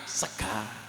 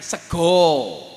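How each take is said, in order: First: The word ends in an A sound, Ngapak style. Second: The word ends in an O sound, Jogja style.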